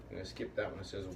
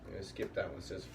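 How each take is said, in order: Both takes have the same delivery.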